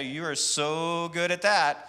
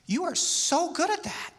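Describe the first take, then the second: First: The tone sounds sarcastic and mocking. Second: The tone sounds warm and admiring. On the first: The speaker does not mean the praise. "I'm being sarcastic" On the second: The speaker sincerely admires the skill. "that's what I'm I'm really admiring"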